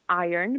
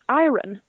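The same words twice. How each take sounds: First: The R comes after the vowel, like 'eye-ern'. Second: The R comes before the O, following the spelling. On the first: The speaker calls it right. "because then it would be spelled I O R N" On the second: The speaker calls it wrong. "which makes Swedes think it should be pronounced iron"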